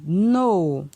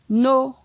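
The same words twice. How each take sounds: First: The syllable is said on a falling tone. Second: The syllable is said on a mid tone. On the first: "ton descendant" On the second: "ton moyen"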